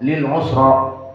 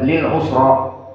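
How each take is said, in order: The two takes are said the same way.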